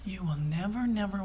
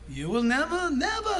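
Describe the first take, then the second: First: It is said in a calm, subdued way. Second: It is said in a loud, animated way. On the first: This is a restrained way of refusing. The speaker calls it wrong. "they don't say things subtly. They don't go" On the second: This is a forceful, emphatic refusal. The speaker calls it right. "Everything's flying when they say it"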